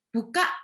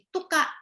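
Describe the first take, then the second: First: The word starts with a b sound. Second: The word starts with a t sound. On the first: This is the word the child intends. The speaker calls it right. "mau ngomong buka" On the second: This is how a child with an articulation problem says it. The speaker calls it wrong. "jadi tuka"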